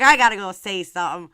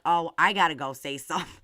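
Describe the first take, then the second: First: Louder, punched-up retelling; mock-urgent, loud announcement; fired-up retold reply. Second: Said in the usual way. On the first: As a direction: repeat it with more force, playfully worked up. Repeats her fired-up reply.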